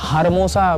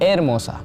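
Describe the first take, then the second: First: The word begins with an h sound. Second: The word begins directly with a vowel. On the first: The speaker calls it wrong. "बहुत लोग कहेंगे हारमोसा क्योंकि H E R लिखा है" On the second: The speaker calls it right. "H silent होता है"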